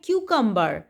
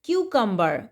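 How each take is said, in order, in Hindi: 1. शब्द 'kyoo' ध्वनि से शुरू होता है। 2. शब्द 'kyoo' ध्वनि से शुरू होता है।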